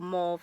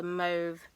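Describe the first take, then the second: First: "Mauve" with an AW vowel, like mawv; "Mauve" as mawv, open rounded vowel; alternate pronunciation. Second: "Mauve" with a long OH, like mohv; "Mauve" as mohv, vowel as in "go"; alternate pronunciation. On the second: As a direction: say "Mauve" to rhyme with stove. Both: Shown as a demonstration. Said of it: "however you want to pronounce it".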